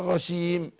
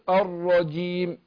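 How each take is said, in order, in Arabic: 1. صوت الجيم رخو ومنتشر مثل الشين. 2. صوت الجيم شديد، وفيه حبس. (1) "ما ينفعش ... لأن الرجيم كده داخل على الشين" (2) "لكن اقول الرجيم"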